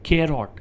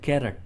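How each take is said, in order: First: The second syllable has a full 'o' vowel. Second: The second syllable has a reduced 'uh' vowel. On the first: "શું કહેશો કેરોટ" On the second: "ઘણા કેરટ પણ કહેતા હોય છે"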